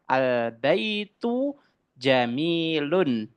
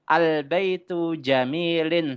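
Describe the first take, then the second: First: The last word ends with the sound -un. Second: The last word ends with the sound -in. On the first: The speaker calls it right. "Yang betul adalah al-baitu jamilun" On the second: The speaker calls it wrong.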